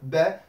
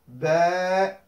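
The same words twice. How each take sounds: First: The vowel is held for one short beat. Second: The vowel is held for two beats. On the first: "comme on a vu dans la leçon précédente" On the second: "d'allonger euh, le temps"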